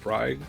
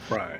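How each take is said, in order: First: The name ends with a hard g sound. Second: The name ends on an open vowel sound. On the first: The speaker calls it wrong. "I'm not sure how to pronounce it" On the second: The speaker calls it right. "they pronounce it Bry"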